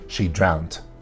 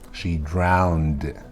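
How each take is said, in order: First: The word ends with a T sound. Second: The word ends with a D sound. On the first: The speaker calls it wrong. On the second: The speaker calls it right. "It's definitely a D"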